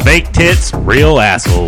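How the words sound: It is read confidently, with conviction. The speaker calls it right. "Read it with conviction"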